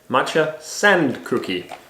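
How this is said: It is said with English pronunciation. "in a way that's not uh, Japanese pronunciation"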